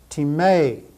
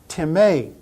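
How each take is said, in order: The two takes are said the same way.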